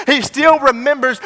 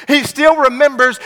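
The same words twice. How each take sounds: The two takes are said the same way.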